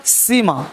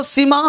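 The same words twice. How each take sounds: First: सीमा with a lengthened ee, lower; long vowel. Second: सीमा with a short, quick ee; short vowel. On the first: Teacher contrasts spellings for class, सीमा said long. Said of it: "लंबा हो गया". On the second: Teacher contrasts spellings for class, सीमा said short. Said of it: "short हो गया". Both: Shown as a demonstration.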